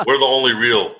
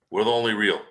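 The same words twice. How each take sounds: First: The only real punched louder, falling; "We're the only real" hit hard and loud; emphatic. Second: Said in the usual way. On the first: Shown as a demonstration. Insisting to the hosts, emphatic.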